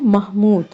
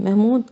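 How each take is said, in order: First: It is said with Arabic pronunciation. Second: It is said with everyday Urdu pronunciation. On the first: The speaker calls it right. "सही है" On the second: The speaker calls it wrong. "हमारे यहाँ उर्दू में ... महमूद कहते हैं"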